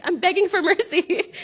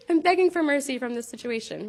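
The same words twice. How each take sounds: First: High, playful beg for mercy; a lightly put-on plea; mock pleading. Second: Said in the usual way. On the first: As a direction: ham up a desperate plea to her daughter. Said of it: "And I was like".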